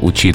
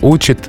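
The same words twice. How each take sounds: First: The stress is on the second syllable. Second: The stress is on the first syllable. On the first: This was the older form. "было" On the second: This is the current form. "стало"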